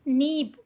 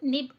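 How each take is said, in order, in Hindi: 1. स्वर लंबा और खिंचा हुआ है। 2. स्वर छोटा और कटा हुआ है। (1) "किसी को भी ऐसे नहीं पढ़ रहे हम" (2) "ऐसे पढ़ रहे हैं"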